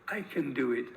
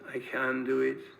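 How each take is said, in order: First: The vowel in 'can' is short and squeezed. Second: The vowel in 'can' is stretched and long. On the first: "it's squeezed to I can" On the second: "In the north of England, we tend to stretch the A and make it longer"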